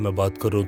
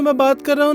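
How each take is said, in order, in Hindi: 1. आवाज़ भारी और गहरी है। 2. आवाज़ ऊँची और पतली है। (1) "मैं ज़्यादा भारी आवाज़ में ही बात कर रहा हूँ" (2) "वो मैं इस हाई पिच पे बात कर रहा हूँ"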